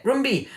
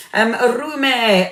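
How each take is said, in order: First: Rumbi with the b sounded, "Room-bee"; corrected name. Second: Rumi said without the b, as "Roo-mee"; wrong name. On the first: Host correcting herself to say the viewer's name Rumbi. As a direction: say "Rumbi" carefully, b included. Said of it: "I hope I'm saying your name properly". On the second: Host misreading a viewer's name as Rumi. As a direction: read the name as "Rumi", like the poet. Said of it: "I got your name wrong there". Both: Real, not acted.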